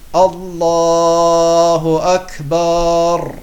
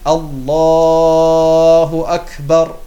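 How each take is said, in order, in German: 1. Der Vokal nach dem B wird gedehnt. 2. Der Vokal nach dem B ist kurz. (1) "fügen wieder ein Alif rein ... das ist auch falsch" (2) "statt Allahu Akbar"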